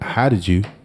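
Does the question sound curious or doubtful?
curious. It sounds like a plainly curious question. The asker simply wants to know how it happened.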